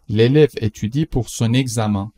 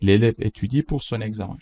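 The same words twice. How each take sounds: First: Slow, careful example sentence; slow model read. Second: Said in the usual way. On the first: Shown as a demonstration. Teacher reads the example slowly to the class. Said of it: "teacher models slowly". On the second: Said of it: "repeat at normal speed".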